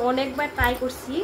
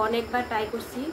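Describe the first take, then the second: No difference in how they are said.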